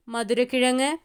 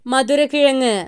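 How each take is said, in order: First: Said in the usual way. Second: മധുരക്കിഴങ്ങ് stated firmly with a falling close; announcing the answer. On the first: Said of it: "ഉത്തരം മധുരക്കിഴങ്ങ്". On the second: Shown as a demonstration. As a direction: land മധുരക്കിഴങ്ങ് as the final answer. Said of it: "ഉത്തരം".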